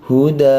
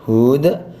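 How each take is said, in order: First: The final vowel is held only briefly. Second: The final vowel is drawn out long. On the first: The speaker calls it right. "tapi huda, dua harokat saja" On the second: The speaker calls it wrong. "bukan huda"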